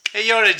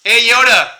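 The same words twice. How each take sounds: First: Said in the usual way. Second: Louder call to the toy; a louder shout of the name. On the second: Real, not acted. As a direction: hail the Magic Eight Ball. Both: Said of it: "Watch, watch, watch".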